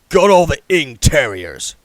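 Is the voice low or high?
low. It is said in a lower, normal voice.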